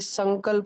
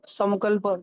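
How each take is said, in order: First: The nasal sound is said as n. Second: The nasal sound is said as m. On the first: The speaker calls it right. "ये संकल्प है, एन" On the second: The speaker calls it wrong. "क्या ये संक संकल्प? नहीं"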